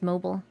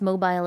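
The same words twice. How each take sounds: First: It is said in an American-style pronunciation. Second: It is said in a British-style pronunciation.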